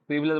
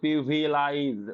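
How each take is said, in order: First: The last syllable sounds like 'lej'. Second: The last syllable sounds like 'lize'. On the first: The speaker calls it right. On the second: The speaker calls it wrong.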